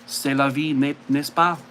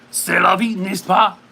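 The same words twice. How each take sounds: First: Lightly put-on French accent, relaxed; a casual hint of French accent. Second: Put-on louder French accent. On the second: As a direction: say it again in French accent, with more push. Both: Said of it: "the French accent".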